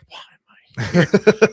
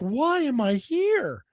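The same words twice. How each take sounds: First: It sounds exasperated and fed up. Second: It sounds amazed and grateful.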